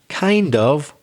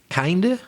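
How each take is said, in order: First: Both words are said fully and separately. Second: The words blur into one reduced word. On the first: "I shouldn't really say it that way" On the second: "That's the weak pronunciation"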